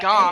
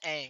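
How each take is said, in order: First: The vowel is like the 'o' in song. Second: The vowel is like the 'a' in cat. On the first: The way the word is said in the movie. The speaker calls it wrong. "gong if you watch the movie" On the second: The usual way the word is said. The speaker calls it right. "gang or the"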